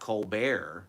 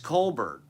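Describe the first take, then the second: First: The final T is silent, stress on the end. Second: The final T is sounded, stress at the start. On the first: This is the rebranded version of the name. The speaker calls it wrong. "the guy's name is not Colbert" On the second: This is the name's original version. The speaker calls it right. "It's Colbert"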